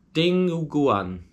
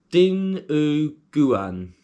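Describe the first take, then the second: First: High, drawn-out word in a put-on Filipino accent; attempted Filipino accent. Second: Said in the usual way. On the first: Shown as a demonstration. British vlogger trying to pronounce a dish name, mock Filipino accent. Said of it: "do it in a Filipino accent". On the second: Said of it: "I probably sound ridiculous".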